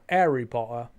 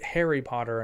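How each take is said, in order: First: The H at the start is dropped. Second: The H at the start is pronounced.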